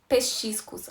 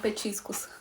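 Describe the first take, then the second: First: The middle consonant is a 'ch' sound. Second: The middle consonant is a 't' sound. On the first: The speaker calls it wrong. "eu adoro falar palavras erradas" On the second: The speaker calls it right. "Não petiscos"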